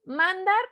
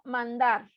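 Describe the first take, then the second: First: MANdar, drawn-out MAN, as a question; stress on first syllable. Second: ManDAR with a stressed DAR, falling; stress on last syllable. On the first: Teacher quizzing students on the syllable, stress on MAN. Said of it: "si está en la última sílaba". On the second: Teacher offering students the second option, stress on DAR. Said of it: "o está en la penúltima". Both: Shown as a demonstration.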